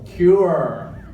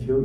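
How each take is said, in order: First: "cure" with a pronounced final R, higher and louder; clear R sound. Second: "kill" said for cure, without the R; mispronounced cure. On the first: Shown as a demonstration. Speaker correcting the slip for the audience, stressed R in "cure". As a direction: hit the R at the end of "cure". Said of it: "The R". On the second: Retold or imitated. Actor reassuring someone on stage, R-less slip on "kill". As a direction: say "kill" where cure is meant, R lost. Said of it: "The R, cure".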